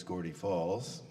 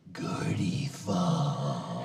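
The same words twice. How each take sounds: First: Said in the usual way. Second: Slow, drawn-out theatrical whisper; mock-dramatic whispered name call; Bill's whispered name. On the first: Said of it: "my name's Gordie Falls". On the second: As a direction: hush it out slowly like a stage secret. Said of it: "as Bill used to say".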